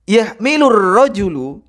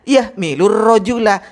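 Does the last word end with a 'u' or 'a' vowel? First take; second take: u; a. First: The last word ends with a 'u' vowel. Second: The last word ends with an 'a' vowel. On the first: The speaker calls it wrong. "Ini keliru" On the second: The speaker calls it right. "Seharusnya yahmilur rajula"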